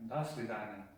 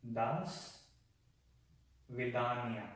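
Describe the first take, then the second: First: Said in the usual way. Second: "Das ... Vidania" split by a long pause; broken-down pronunciation. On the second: Shown as a demonstration. Teacher showing learners the goodbye, "Das Vidania" broken in two. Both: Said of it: "You would say Das Vidania".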